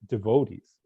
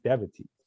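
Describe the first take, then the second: First: It is pronounced the way the community says it. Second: It is pronounced the way the dictionary gives it. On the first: The speaker calls it wrong. "everyone mispronounced everything" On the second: The speaker calls it right. "It's going to say devotees"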